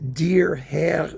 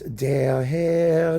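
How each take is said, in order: First: The word der has a different vowel from Herr. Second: The words der and Herr share the same vowel. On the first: The speaker calls it wrong. "the pronunciation is a little bit weird" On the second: The speaker calls it right. "It's all the same vowel"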